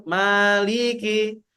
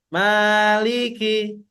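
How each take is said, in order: No difference in how they are said.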